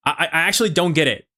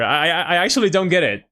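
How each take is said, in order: First: The same line in his put-on American accent; learned American English accent. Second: English with a Mexican Spanish accent; no American accent, Mexican-accented English. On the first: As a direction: switch on the gringo accent for this line. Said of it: "let me turn it on". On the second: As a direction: let the Mexican accent through. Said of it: "turn off my accent". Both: Shown as a demonstration.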